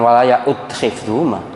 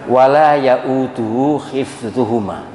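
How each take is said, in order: First: The word stops at ya'ud, without 'uhu'. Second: The syllables 'uhu' are said after ya'ud. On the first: The speaker calls it wrong. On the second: The speaker calls it right. "itu yang betul"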